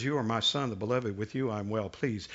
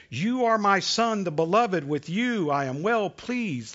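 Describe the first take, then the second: First: Softer, heavy, foreboding read; ominous. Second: A proud father's warm words over his son; tender blessing. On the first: Preacher rereads God's words to Jesus, softer and ominous. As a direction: let the blessing darken into a warning. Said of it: "very much more ominous". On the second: God calling out to Jesus, tender and proud. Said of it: "that sounds so nice". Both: Acted.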